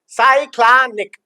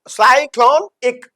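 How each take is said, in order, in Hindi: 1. दूसरे अक्षर में खुला 'ah' स्वर है। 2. दूसरे अक्षर में गोल 'o' स्वर है। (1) "जो अमेरिकन है वो लेगा साइक्ला साइक्लानिक" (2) "अगर ब्रिटन बोलेगा तो वो बोलेगा साई, देन ये लेगा क्लॉ क्लोन"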